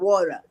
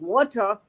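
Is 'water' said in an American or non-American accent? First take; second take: American; non-American. First: It is said in an imitated American accent. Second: It is said in her own non-American accent.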